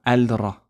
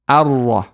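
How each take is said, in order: First: The l is heard before the r. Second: The l is dropped and the r is doubled. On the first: The speaker calls it wrong. "We don't say Al-Ra" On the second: The speaker calls it right. "So we say Ar-Rah"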